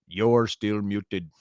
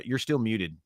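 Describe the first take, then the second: First: Drawn-out, deliberate "You're still muted"; each word stretched and separated; slow, emphatic repeat. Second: Said in the usual way. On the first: Real, not acted. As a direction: spell it out very slowly for someone not hearing. Repeats slowly to muted co-host.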